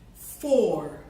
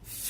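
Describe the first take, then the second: First: The vowel is full and clear. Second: The vowel is reduced and weak. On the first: "I'll say the words in their loud form" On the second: "repeat the words in their faint form"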